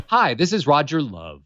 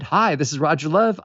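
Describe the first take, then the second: First: "Hi, this is Roger Love" with the tune falling from "Hi" down through "Love"; flat, falling voicemail greeting; descending melody. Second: "Hi, this is Roger Love" with the tune rising on "Love"; bright rising voicemail greeting; upbeat greeting. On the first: Caller recording voicemail with a sinking tune. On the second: Caller recording a hopeful voicemail, rising tune. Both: Shown as a demonstration. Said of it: "And they're descending melodies".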